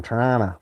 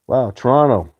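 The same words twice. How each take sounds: First: Toronto clipped to two syllables, like Tronna; Toronto said the way locals say it, t swallowed; local Toronto pronunciation. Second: Said in the usual way. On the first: Shown as a demonstration. Showing viewers how Torontonians say Toronto, clipped to Tronna. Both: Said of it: "That's how they say it in Toronto".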